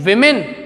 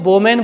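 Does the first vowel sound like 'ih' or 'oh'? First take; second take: ih; oh. First: The first vowel sounds like 'ih'. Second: The first vowel sounds like 'oh'. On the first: The speaker calls it right. "इसको हम क्या बोलते हैं" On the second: The speaker calls it wrong. "बच्चे इसको वोमेन बोलते हैं, वो गलत है"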